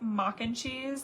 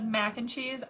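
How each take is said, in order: First: The first word has an 'ah' vowel. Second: The first word has a flat 'a' vowel. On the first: A child's accented way of saying it. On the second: The standard way of saying it.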